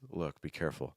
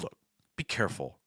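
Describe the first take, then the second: First: It is said mildly, with softer intonation. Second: It is said sternly, with sharp falls and clipped breath. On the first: A gentle warning. "it sounds a little serious" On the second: A firm warning showing displeasure. "sharper falling intonations and you're cutting more breath"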